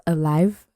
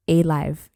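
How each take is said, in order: First: Said in the usual way. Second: Alive said as "ay-live", the first syllable stretched to a long A, a bit louder. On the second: Shown as a demonstration. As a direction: stress the long "ay" at the start of alive. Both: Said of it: "He didn't say, so this, he says alive".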